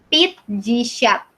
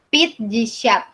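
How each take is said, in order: Both takes have the same delivery.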